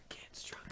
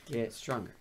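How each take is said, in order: First: Whispered urging; whispering. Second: Said in the usual way. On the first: Real, not acted. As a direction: hiss it under your breath. Coaching the player.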